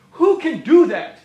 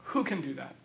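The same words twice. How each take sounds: First: Ringing rhetorical question thrown at the room; preacher booming the question; loud challenge. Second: Soft, low, almost to himself; preacher quietly letting the question sink in; hushed echo. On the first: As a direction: call it out so everyone feels it. Rhetorical question then repeated hushed. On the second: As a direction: drop to a near-hush on the repeat. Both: Acted.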